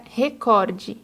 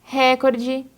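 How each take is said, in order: First: Recorde stressed on COR, open o; correct stress. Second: Recorde stressed on RE with an open e; wrong stress. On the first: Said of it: "o correto é recorde". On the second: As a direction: lean on the first syllable RE of Recorde. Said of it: "quando o correto é recorde". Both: Shown as a demonstration.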